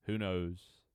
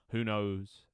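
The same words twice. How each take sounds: The two takes are said the same way.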